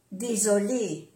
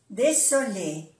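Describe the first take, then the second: First: "désolé" with a voiced z; soft Z. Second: "désolé" with an unvoiced s; double S. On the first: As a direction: say "désolé" with a buzzing z for the s. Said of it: "como si fuera una Z suave". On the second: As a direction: say "désolé" with a clear hissed s, as demonstrated. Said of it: "es importante pronunciar bien las dos S". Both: Shown as a demonstration.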